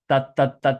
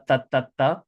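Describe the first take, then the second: The two takes are said the same way.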